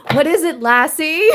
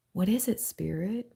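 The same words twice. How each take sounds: First: Higher, louder call to a dog; mock Lassie call. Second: Said in the usual way. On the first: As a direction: call out like to a loyal dog, playfully. Jokes calling spirit Lassie.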